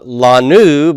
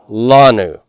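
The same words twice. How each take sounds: First: The stress is on the last syllable. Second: The stress is on the first syllable. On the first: The speaker calls it wrong. "it's not lanu" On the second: The speaker calls it right. "we have first syllable stress"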